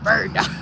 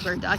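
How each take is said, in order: First: It is said in a put-on, imitated voice. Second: It is said in a plain, ordinary voice.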